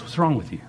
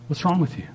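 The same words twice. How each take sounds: First: Soft, caring question; concerned. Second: Higher, sneering question; scornful. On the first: Preacher voicing God gently asking the worldly, soft concern. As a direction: ask it gently like a worried father. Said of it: "he goes". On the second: Preacher voicing the world mocking believers, sneering. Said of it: "The world looks at you and says". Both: Retold or imitated.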